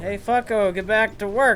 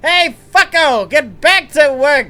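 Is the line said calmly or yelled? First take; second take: calmly; yelled. First: The line is said at a calm, normal volume. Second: The line is yelled loudly.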